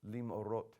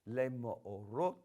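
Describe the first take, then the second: First: The first vowel merges into one closed syllable. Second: The first vowel forms its own separate syllable. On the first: The speaker calls it right. "it's going to be a uh, two consonant uh, syllable" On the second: The speaker calls it wrong. "I included the schwa on my pronunciation just a minute ago as a separate syllable"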